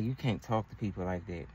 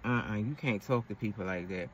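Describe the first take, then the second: First: Put-on lower, softer, calm boyfriend correcting her. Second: Lower, softer "uh-uh" and a patient correction; calm boyfriend. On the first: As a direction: quietly lay down the rule like a patient boyfriend. Boyfriend correcting her, voiced low. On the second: Retold or imitated. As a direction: disapprove calmly, low and soft. Boyfriend correcting her again.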